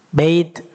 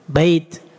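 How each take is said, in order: Both takes have the same delivery.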